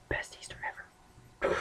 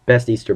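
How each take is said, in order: First: Breathy hushed whisper, barely voiced. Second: Said in the usual way. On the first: Real, not acted. Repeating it to himself in a hushed whisper. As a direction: whisper the aside to yourself. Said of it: "Best Easter (said plainly first)". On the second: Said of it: "Best Easter (repeated whispered)".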